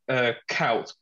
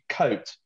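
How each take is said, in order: First: The vowel sounds like 'ow'. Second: The vowel sounds like 'oh'. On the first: The speaker calls it wrong. "when everyone goes" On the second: The speaker calls it right. "The U-I is actually pronounced O"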